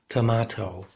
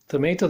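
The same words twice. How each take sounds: First: The word is said with a British accent. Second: The word is said with an American accent. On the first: "In England, you would hear tomato" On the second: "that's American pronunciation"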